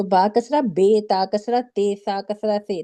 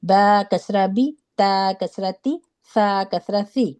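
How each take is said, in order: First: "بے، تے، سے" ending in ay instead of ee; wrong majhool vowel. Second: Slow, even "بی، تی، سی", each ending in ee; correct ee ending. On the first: Teacher showing the Urdu-style mistake, endings turned to ay. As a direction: misread each kasra with an ay sound. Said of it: "اس سے پورا قرآن مجہول ہو جاتا ہے". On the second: Teacher modelling kasra for students, even with clear ee endings. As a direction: say "با کسرہ بی" with a clean ee, no jerk. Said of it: "نہ جھٹکا دے کے پڑھتے ہیں". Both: Shown as a demonstration.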